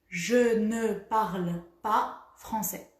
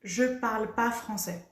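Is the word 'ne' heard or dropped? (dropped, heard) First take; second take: heard; dropped. First: The word ne is said in full. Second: The word ne is dropped in quick speech. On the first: This is the full, careful form. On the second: This is how people say it when speaking fast.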